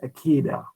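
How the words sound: It is said in an Ashkenazi Hebrew pronunciation.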